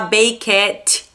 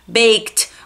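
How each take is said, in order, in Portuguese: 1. A terminação é uma sílaba extra com uma vogal. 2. A terminação é um som curto de t. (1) "Cuidado para não falar baked" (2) "você substituiu o E e o D pelo som do T"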